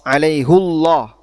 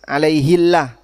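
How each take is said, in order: First: The vowel is u and the L sounds heavy. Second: The vowel is i and the L sounds light. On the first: "ini tafkhim. Sehingga Allahnya jadi tebal" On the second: "jadinya tarkik. Sehingga di situ bacanya jadi tipis"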